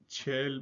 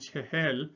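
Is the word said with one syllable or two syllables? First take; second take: one syllable; two syllables. First: The word is said as one short syllable. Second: The word is said in two full syllables. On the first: This is the casual everyday form. "in informal Iranian we say chel" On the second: This is the formal form. "but informal Iranian pronunciation chehel"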